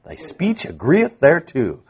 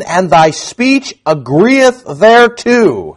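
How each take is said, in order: First: Thy speech agreeth thereto repeated softly, agreeth relished; savoring repeat. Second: Thy speech agreeth thereto read slow, agreeth leaned on; slow scripture reading. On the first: Preacher softly relishing the verse for his congregation. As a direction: softly savour the old phrase. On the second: Preacher reading the bystanders' taunt slowly aloud. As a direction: savour the old words slowly. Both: Shown as a demonstration. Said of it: "Don't you like that?".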